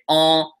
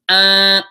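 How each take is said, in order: First: The nasal vowel sounds like French 'on'. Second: The nasal vowel sounds like French 'in'. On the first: The speaker calls it wrong. "they end up going on when they try and do it" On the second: The speaker calls it right. "I Ns are pronounced as"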